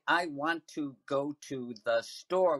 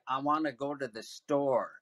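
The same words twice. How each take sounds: First: Each word is pronounced fully and separately. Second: The words are run together, "want to" as "wanna". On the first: "we don't say" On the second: "We say, ... So want to becomes wanna"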